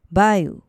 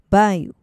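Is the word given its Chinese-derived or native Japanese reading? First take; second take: Chinese-derived; Chinese-derived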